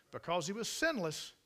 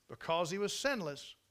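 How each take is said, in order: Both takes have the same delivery.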